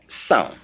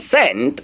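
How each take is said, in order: First: No final t sound is pronounced. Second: A final t sound is pronounced. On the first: The speaker calls it right. "I say the T there is silence" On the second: The speaker calls it wrong. "the psalm there is not sent"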